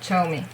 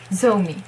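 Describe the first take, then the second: First: The name begins with a ch sound. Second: The name begins with a z sound. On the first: The speaker calls it right. "It's Chomi" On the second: The speaker calls it wrong. "Why isn't it Zomi? Because it's not"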